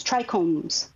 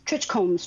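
First: "trichomes" said as TRY-comes; "trichomes" with a hard k, TRY-kohmz; trichomes with long i. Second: "trichomes" said as TRITCH-comes; "trichomes" with a tch sound, TRITCH-kohmz; trichomes with short i. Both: Shown as a demonstration. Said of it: "however you wanna say 'em".

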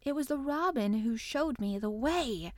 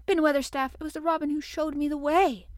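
First: Measured, stubborn insistence; obstinate protest. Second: Put-on higher, urgent child's call; calling up urgently. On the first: Mary insisting to the angry gardener, obstinately. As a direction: hold your ground, no shouting. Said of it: "she protested obstinately". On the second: Mary calling up the wall to explain, urgent. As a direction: call up insistently to him. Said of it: "called up to him with a sort of gasp". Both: A narrator's reading.

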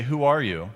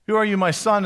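First: Said in the usual way. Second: "Who are you, my son?" lifted higher and louder on "Who"; tender questioning. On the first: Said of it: "he'll just say". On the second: Shown as a demonstration. Isaac questioning the son he suspects, "Who" raised and louder. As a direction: press on "Who" and lean into "my son". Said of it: "assumes he only has two guesses".

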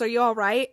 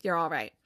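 First: "Are you all right?" with a rise on right; retold question, rising on "right"; questioning check-in. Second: "You're all right" as a low, soft statement; low, soft confirmation on "all right"; retold affirmation. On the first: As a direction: ask it as a real question, lifting at the end. Asks first, statement follows after nod. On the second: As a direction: settle "You're all right" downward, quietly. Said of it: "nods his head and he goes".

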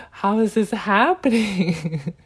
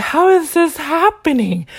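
First: Slow, raised, tickled disbelief breaking into laughter; amused disbelief. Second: High, loud, outraged disbelief; re-enacted anger, pitched up and loud; retold anger. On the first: Retold or imitated. Finding the rule situation very funny, slow amused disbelief. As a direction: stretch it out, about to laugh. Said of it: "found the situation very funny". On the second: Venting anger at how this is happening, high and loud retold outrage. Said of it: "I was filled with anger".

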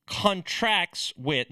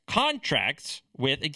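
First: Contracts with stress on the second syllable, slow; wrong stress. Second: Contracts with stress on the first syllable, slow; right stress. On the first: Mocking the wrong stress on contracts, slow and deliberate. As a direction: CONtracts said conTRACTS, drawn out slowly. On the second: Correcting the stress on contracts, slow and deliberate. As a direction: CONtracts stressed on CON, drawn out slowly. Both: Shown as a demonstration. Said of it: "emphasis on the right syllable is important here".

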